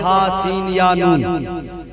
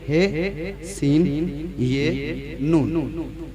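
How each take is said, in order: First: The letter names are said in Arabic style. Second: The letter names are said in Urdu style. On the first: "अरबी के एतबार से पढ़ते तो" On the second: "Urdu में यही बोलते"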